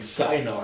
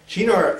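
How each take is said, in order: First: It is said so it sounds like cyanide. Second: It is said with an Italian pronunciation. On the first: The speaker calls it wrong. "it sounds like cyanide if you do that" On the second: The speaker calls it right. "Is that how you pronounce it in Italian? I believe so"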